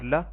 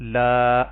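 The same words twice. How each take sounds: First: The vowel is short. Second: The vowel is drawn out long. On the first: The speaker calls it right. "लाम जबर ला" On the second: The speaker calls it wrong. "लाम जबर अलिफ ला तो ये माना बदल जाएगा"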